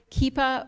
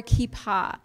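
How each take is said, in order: First: "kippah" stressed on the first syllable, KEE-puh; "kippah" with a reduced final vowel; English pronunciation. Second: "kippah" stressed on the last syllable, kee-PAH; "kippah" with a full open final "ah"; Israeli Hebrew pronunciation. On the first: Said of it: "We might say kippah or kippah". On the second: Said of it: "influenced by Israeli Hebrew". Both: Shown as a demonstration.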